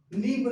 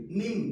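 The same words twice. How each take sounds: First: निम्ब higher and loud, with a released b; B sounded in निम्ब. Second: निम ending on m; silent B in निम. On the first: Teacher revising, showing the misreading with b pronounced. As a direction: say निम्ब wrongly, punching the b. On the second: Teacher revising, showing the right reading with b silent. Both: Shown as a demonstration. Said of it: "निम्ब नहीं".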